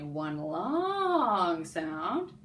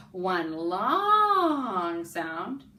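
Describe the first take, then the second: First: Very slow, stretched phrase; drawn out. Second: Very slow, stretched and louder phrase; drawn out. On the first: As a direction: stretch the words over two beats. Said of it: "everyone draw that with me. Say". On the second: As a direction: hold each word long with the class. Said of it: "Together now". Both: Shown as a demonstration.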